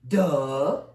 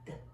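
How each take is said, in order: First: The d sound is said loudly. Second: The d sound is said quietly. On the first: The speaker calls it wrong. "We don't say duh" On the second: The speaker calls it right. "It's very quiet"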